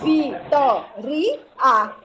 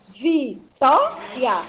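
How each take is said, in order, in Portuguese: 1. As vogais finais estão separadas em duas sílabas. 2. As vogais finais estão unidas em uma só sílaba. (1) "e não Vitoria" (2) "você fala Vitória"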